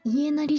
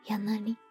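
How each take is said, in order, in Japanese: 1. この言葉は'ie'の音で始まります。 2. この言葉は'ya'の音で始まります。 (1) "イエナリじゃないんだよね" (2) "ヤナリって言うんだよね"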